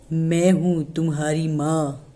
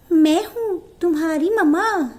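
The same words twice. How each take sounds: First: Lower, slow thick-voiced wolf pretending; a wolf clumsily posing as mother. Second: Higher, sweet put-on mother voice; wolf imitating the goat mother after practising; wolf mimicking mother goat. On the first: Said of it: "इसकी आवाज़ देखो कितनी मोटी है". (मोटी आवाज़ में माँ बनने का नाटक करता भेड़िया) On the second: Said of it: "training करी थोड़ी सी कि बकरी कैसे बोलती है". (बकरी माँ की नकल करता भेड़िया)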